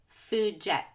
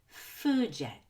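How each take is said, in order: First: The second word gets the stress. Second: The first word is longer and higher pitched. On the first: The speaker calls it wrong. "it's very important that I don't say food jet" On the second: The speaker calls it right. "food to be more stretched out and higher pitched than the word yet"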